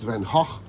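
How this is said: The name is pronounced the Dutch way. "in where he was born, in Zundert, it's Van Gogh"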